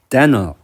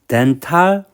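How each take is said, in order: First: It is said with an English accent. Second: It is said with a Japanese-style accent. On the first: The speaker calls it right. "두 번째는 어, 영어 발음으로" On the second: The speaker calls it wrong. "앞에 발음은 그냥 일본어적으로 읽는 거고"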